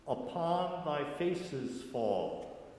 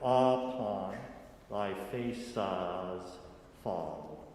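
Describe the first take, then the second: First: The vowels are plain, with an 'is' buzz. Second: The vowels are opened toward 'ah', no buzz. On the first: The speaker calls it wrong. "we don't sing it like I said it" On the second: The speaker calls it right. "We put lots of A H's in there"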